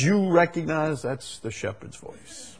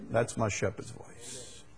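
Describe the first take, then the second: First: Said in the usual way. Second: Whisper. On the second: Acted. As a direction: whisper it like a secret recognition. Whispered echo of the line.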